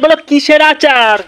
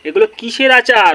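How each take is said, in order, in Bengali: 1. এটা খুব জোরে চিৎকার করে বলা। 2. এটা আস্তে আর অস্পষ্টভাবে মিনমিন করে বলা। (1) "জোরে জোরে চেঁচাচ্ছিস" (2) "মিনমিন করছে"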